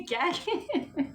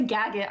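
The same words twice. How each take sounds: First: Gag it stretched out slowly and higher, through a laugh; hammed-up slang gag it; playful gag it. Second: Said in the usual way. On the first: Shown as a demonstration. Owning the phrase to chat, playful and laughing. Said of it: "I say gag it". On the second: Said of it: "I don't say gag it".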